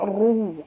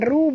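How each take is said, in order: First: The r is said heavy and thick. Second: The r is said light and thin. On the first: The speaker calls it right. "ru tebal ya" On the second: The speaker calls it wrong. "Bukan ru bunyi dia"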